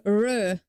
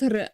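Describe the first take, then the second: First: R said soft, without a roll; smooth English-style R. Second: R rolled hard, Polish-style. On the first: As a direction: say R the English way, untrilled. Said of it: "I try to make R". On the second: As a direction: say R with a hard trill. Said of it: "not R". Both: Shown as a demonstration.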